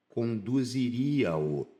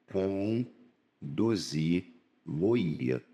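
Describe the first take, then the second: First: "Conduziria-o" stretched out slowly syllable by syllable; slow, deliberate demo of the error; slow wrong form. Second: "conduzi-lo-ia" drawn out very slowly and lower; very slow, low model pronunciation; slow correct form. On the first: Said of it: "tá errado". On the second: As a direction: dictate "conduzi-lo-ia" syllable by syllable, low. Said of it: "Seria a forma". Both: Shown as a demonstration.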